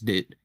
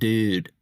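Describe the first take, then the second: First: The word is short and clipped. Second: The vowel is drawn out long. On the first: This is how the speaker says it. The speaker calls it right. "a short, curt, like straight to the point type of dude" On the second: This is how surfers say it. The speaker calls it wrong. "you're drawing it out too much"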